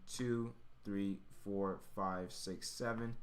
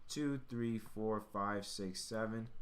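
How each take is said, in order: Both takes have the same delivery.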